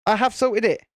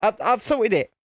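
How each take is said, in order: First: "have" stressed in full, insisting; emphatic HAVE, falling away after. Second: Said in the usual way. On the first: Real, not acted. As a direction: lean firmly on "have" to counter doubt. Repeats it with emphatic full form.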